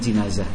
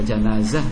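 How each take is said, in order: First: The first vowel sounds like 'i'. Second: The first vowel sounds like 'a'. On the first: "bisa dibaca jinazah" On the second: "bisa dibaca janazah"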